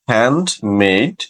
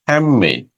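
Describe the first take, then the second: First: A d sound is heard before the m. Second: The d becomes an m sound. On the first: "যেমন হ্যান্ডমেড" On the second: "এটা হয়ে যাবে হ্যামমেড"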